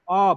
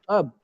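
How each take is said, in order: First: The syllable is strong and stressed. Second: The syllable is weak and reduced. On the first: The word is used as a noun. "it becomes ob, ob, it gets stress" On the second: The word is used as a verb. "O B becomes weaker, it becomes up"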